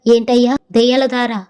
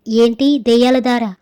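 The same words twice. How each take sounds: First: Mildly shocked wife's question. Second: Slow, mildly fearful question; frightened. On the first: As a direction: ask in startled disbelief, lightly acted. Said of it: "అని మా ఆవిడ shock అయ్యింది". (కాస్త ఉలిక్కిపడి అడుగుతూ) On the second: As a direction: draw out the question with a touch of fright. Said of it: "అని నా భార్య భయపడుతూ ఉంది". (కాస్త భయంతో సాగదీసి అడుగుతూ) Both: A narrator's reading.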